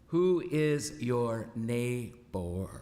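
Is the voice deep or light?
light. It is said in a lighter, less deep voice. The speaker calls it wrong.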